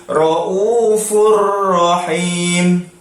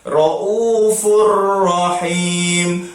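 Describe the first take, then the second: Both takes have the same delivery.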